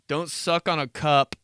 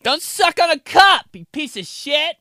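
First: Said through a laugh; plain chuckled line; amused own voice. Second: High loud nagging mom; shrill angry mom voice; mom scolding. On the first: Real, not acted. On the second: Retold or imitated. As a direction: scold like a fed-up mother. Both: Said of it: "my mom".

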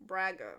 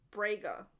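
First: "Braga" with an open a, BRAG-uh; second pronunciation attempt. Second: "Braga" with a long ay, BRAY-guh; pronunciation attempt. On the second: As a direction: say "Braga" to rhyme with Vega. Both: Real, not acted. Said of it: "can I pronounce the names?".

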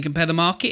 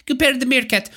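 First: Said in the usual way. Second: Comic Russian accent, pitched up; higher-pitched mock Russian accent. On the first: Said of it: "it sounds like someone saying". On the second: Shown as a demonstration. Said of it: "or with a Russian accent".

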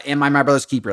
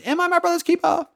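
First: Said in the usual way. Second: Very high mock theatrical voice; hammed-up famous quote. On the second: Quoting the line everyone knows, mockingly hammed up. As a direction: squeal it in an exaggerated falsetto.

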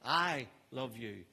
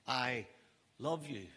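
First: Quiet, slow "I love you" with the stress landing on "I"; soft I love you, weight on I. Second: Very soft "I", a pause, then "love you" falling away; hushed, pause after I. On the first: Preacher demonstrating tone to the congregation, quiet slow "I" stressed. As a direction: lean on "I" softly, unhurried. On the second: Preacher showing another tone of the same words, hushed with pause. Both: Shown as a demonstration. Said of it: "seven different ways just by tone of voice".

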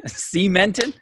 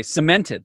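First: "Cemented" as SEE-mented, higher and rising at the end; mocking mispronunciation. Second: "cemented" as suh-MENT-ed, first syllable short; standard pronunciation. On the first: Host teasing friend, mocking SEE-mented "Cemented". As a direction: mimic "Cemented" with a long stressed SEE, incredulous. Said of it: "emphasis on the wrong syllable". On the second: Shown as a demonstration. Host showing friend the expected word, suh-MENT-ed "cemented". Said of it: "I thought you say cemented".

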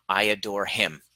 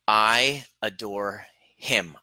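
First: Said in the usual way. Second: "I adore him" drawn out very slowly; slow demo. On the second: Shown as a demonstration. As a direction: let "I adore him" sink in, word by word. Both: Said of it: "I want you to feel this".

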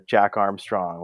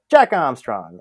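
First: Said in the usual way. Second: Punched loud, falling name call; mock sportscaster shout; broadcaster impression. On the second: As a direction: belt out the name like an excited announcer.

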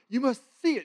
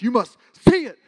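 First: Higher, raised exaggerated call. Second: Loud, higher booming command. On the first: Shown as a demonstration. Speaker showing the congregation the dream voice, exaggerated. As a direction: lift it up to give the feel. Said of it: "a little bit exaggerated ... give you the feel". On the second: Retold or imitated. Dream voice loud enough to wake the sleeper, booming. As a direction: proclaim it so it rattles the glass. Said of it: "it was so loud when he goes".

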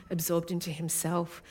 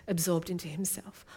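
The two takes are said the same way.

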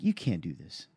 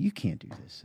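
First: Calm. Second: Hushed, calm, almost breathless warning; very calmly. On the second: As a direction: say it quietly and evenly, like a calm caution. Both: Retold or imitated. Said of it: "That's just very calmly".

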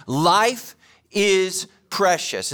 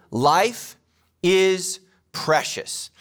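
First: "Life" hit hardest, "is precious" drawn out slowly; slow repeat, stress on Life. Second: "Life is precious" spaced out, each word landing slowly; slow, weighty statement. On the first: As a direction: say it again, leaning on "Life". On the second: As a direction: let "Life" hang, then lay down "is precious". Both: Shown as a demonstration. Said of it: "Let me say it again".

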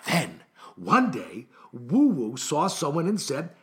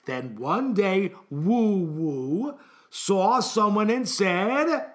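First: Slow storybook narration, lower start; story reading. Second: Very slow, stretched-out story line; emphatic repeat. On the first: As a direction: read it slowly to first graders. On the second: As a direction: drag each word out to cue the class. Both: Acted. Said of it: "Let me repeat the sentence".

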